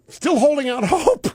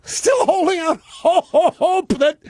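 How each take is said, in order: First: Said in the usual way. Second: Laughing. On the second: Real, not acted. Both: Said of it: "and I'm laughing".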